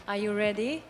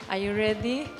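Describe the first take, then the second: Both takes have the same delivery.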